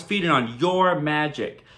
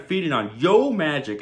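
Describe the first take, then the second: First: "your" said with a clear r before "magic"; sounds like "your". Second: "Yo" said as an open "yo", no r; brand-name pronunciation. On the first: Shown as a demonstration. Explaining the double meaning of the slogan, "your" with its r. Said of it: "kinda sounds like". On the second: Retold or imitated. Shark pitching the yogurt snack, "Yo" without an r. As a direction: say "Yo Magic" with a clean "yo". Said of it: "snack that's called Yo Magic".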